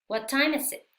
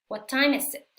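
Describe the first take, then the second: The two takes are said the same way.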